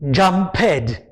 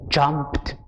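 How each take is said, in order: First: The ending does not sound like a t. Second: The ending sounds like a t. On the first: The speaker calls it wrong. "It is not jumped" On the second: The speaker calls it right. "It sounds almost as if there is a T in the word"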